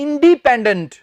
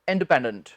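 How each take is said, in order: First: The second syllable is a long 'dee' sound. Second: The second syllable is a short 'd' sound. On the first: The speaker calls it wrong. "बहुत से लोग बोल देते हैं" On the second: The speaker calls it right. "डी नहीं, ड बस"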